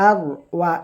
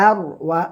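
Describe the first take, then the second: The two takes are said the same way.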